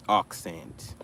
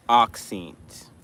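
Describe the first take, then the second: First: Accent said lower, ending ak-sant; Accent dropped low with an open a, ak-sant; corrected accent. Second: Accent said with a short ih, ak-sint; accent with the last syllable as sint; first try at accent. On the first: Streamer correcting herself, saying Accent as ak-sant. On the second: Streamer saying accent as ak-sint in a mock British accent. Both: Shown as a demonstration.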